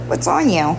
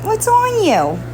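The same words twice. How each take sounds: First: Said in the usual way. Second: High cooing question to the kitten. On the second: Real, not acted. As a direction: coo it up high to the cat. Repeated in baby talk.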